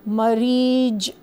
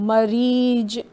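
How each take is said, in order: Both takes have the same delivery.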